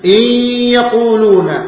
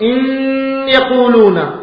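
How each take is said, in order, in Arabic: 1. تندمج النون في الياء مع غنة. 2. تبقى النون منفصلة لكن مع غنة. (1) "الإدغام بغنة" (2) "أتيت بغنة في النون ولم تدغم"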